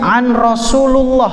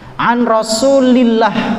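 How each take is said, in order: First: The vowel before 'llah' is a u sound. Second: The vowel before 'llah' is an i sound. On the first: The speaker calls it wrong. "Di buku tulisannya an Rasulullah" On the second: The speaker calls it right. "Kalau setelah an maka harus kasrah"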